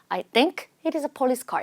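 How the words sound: There is a pause after think. The speaker calls it right. "이렇게 좀 끊었으면 좋았을 것 같아요"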